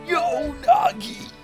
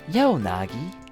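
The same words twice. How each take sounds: First: It is said in a silly put-on voice. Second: It is said in a more serious voice.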